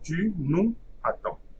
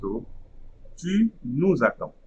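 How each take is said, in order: First: Nous and attends are said without a z link. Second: A z sound links nous to attends. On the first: "I'm not going to read the liaison for the moment" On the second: "there will be a liaison between the complement pronoun and the verb"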